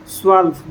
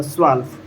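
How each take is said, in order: First: Said in the usual way. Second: स्वाल्फ isolated and lower, as German "zwölf"; German pronunciation. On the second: Shown as a demonstration. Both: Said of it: "twelve को स्वाल्फ बोला जाता है".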